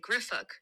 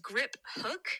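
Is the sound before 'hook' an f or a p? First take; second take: f; p. First: An f sound comes before 'hook'. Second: A p sound comes before 'hook'. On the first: "I also see a PH and I say griff hook" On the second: "you all say is grip hook"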